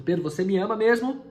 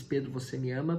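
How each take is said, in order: First: Louder, higher, leaning on mesmo; pressing question. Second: Said in the usual way. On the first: Acted. Jesus presses Pedro a third time, loud and rising.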